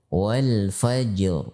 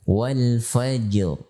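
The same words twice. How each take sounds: Both takes have the same delivery.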